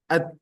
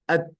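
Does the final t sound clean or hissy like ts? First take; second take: clean; clean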